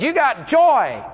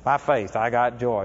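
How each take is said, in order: First: "You got joy" slow, higher and louder, leaning on "joy"; emphatic declaration. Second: Much lower and softer "By faith, I got joy"; a hint of crying on "I got joy"; quiet tearful reply. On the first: Retold or imitated. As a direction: pronounce "joy" like a verdict. Preacher declaring joy over her. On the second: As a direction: mumble it through tears, unconvinced. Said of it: "And she's still crying".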